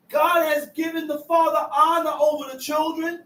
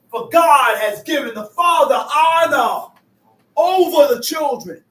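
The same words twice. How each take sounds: First: Said in the usual way. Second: Loud preaching boom on the verse; emphatic preaching. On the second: Acted. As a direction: proclaim it to the congregation.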